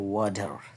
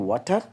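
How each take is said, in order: First: The middle consonant sounds like a soft d. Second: The middle consonant is a clear t sound. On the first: This is how native speakers say it. "টিটা ডর মতো উচ্চারণ হবে" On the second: This is how local speakers say it. "আমরা বলি ওয়াটার"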